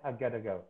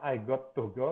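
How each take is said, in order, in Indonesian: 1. Got to diucapkan menyambung menjadi gotta. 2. Got to diucapkan sebagai dua kata utuh. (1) "tapi antara di antaranya I gotta go" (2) "bukan I got to go gitu"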